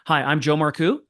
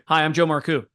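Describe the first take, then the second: First: The voice rises at the end like a question. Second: The voice falls at the end like a statement. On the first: The speaker sounds unsure of their own name. The speaker calls it wrong. "They ask their name" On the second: The speaker sounds confident and authoritative. The speaker calls it right. "downward inflection"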